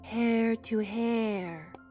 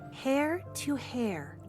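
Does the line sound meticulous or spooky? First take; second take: spooky; meticulous. First: It is said in an eerie, spooky tone. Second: It is said in a precise, careful tone.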